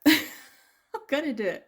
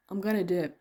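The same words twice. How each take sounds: First: Laughing. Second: Said in the usual way. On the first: Real, not acted. Repeats decision, laughing.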